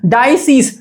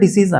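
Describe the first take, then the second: First: The first syllable sounds like 'die'. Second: The first syllable sounds like 'dee'. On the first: "ഡൈ അതിന്റെ ഉച്ചാരണം വരുമ്പോ അങ്ങനെ വരിക" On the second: "രോഗങ്ങൾ ഡിസീസ് അല്ല"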